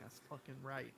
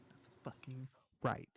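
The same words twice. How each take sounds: First: Said in the usual way. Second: Slow gravelly-free whisper. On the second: Acted. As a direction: whisper it slowly. Whispered repeat, grumpy old man bit.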